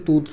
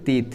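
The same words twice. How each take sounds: First: তুত said as a wrong plural, like tooth. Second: তিত spoken clearly as the word teeth; plural said as teeth. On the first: Teacher showing the class the wrong plural তুত. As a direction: say তুত as the form that is not right. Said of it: "plural কিন্তু তুত হয় না". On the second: Teacher showing the class the plural তিত. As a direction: say তিত carefully, like English teeth. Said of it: "এটার plural হয়ে যাবে কিন্তু তিত". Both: Shown as a demonstration.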